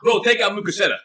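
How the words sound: It is said in a put-on gangster voice.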